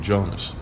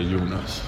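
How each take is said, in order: First: The name is said the American way. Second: The name is said the Swedish way. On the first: "my family over in the States, they can't say Jonas either. So they say Jonas" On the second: "if you're in Sweden, you say Jonas"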